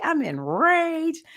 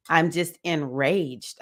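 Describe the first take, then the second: First: Squeaky drawn-out enraged, much higher; hammed-up high slow fury; playful high-pitched slow rage; mock rage, high and slow. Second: Said in the usual way. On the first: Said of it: "I'm like". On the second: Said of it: "my number one emotion".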